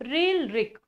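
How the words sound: The vowels are pronounced like ri. This is the usual Hindi regional pronunciation. "Hindi भाषिक असाल तर री म्हणतात"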